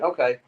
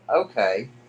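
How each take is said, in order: First: It is said in a willing, agreeable tone. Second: It is said in a grudging, reluctant tone. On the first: The answer is yes. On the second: The answer is really no.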